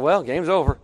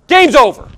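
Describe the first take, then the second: First: Said in the usual way. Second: Loud, higher, abrupt verdict; mad declaration. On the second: Retold or imitated. Preacher mimics friend mad at the game, angry. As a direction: imitate a fuming fan calling it quits.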